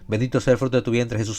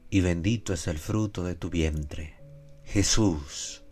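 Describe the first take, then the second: First: It is said quickly, with the name barely heard. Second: It is said slowly, with the name clearly stressed. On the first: The name is lost in hurried prayer. The speaker calls it wrong. "a veces rezamos a la carrera y ni se percibe esto" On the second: The name is honored with care. The speaker calls it right. "Que pueda ser bien pronunciado el nombre de nuestro Señor"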